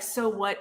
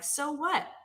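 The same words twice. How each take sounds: First: It is said dismissively, brushing it off. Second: It is said as a sincere, curious question.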